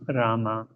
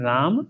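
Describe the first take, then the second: First: The name ends with a vowel after m. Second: The name ends on the m sound. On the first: This is the Sanskrit mantra form. "when Sanskrit mantra you utter, it is Rama" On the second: This is the everyday Hindi form. "In Hindi, it's called Ram"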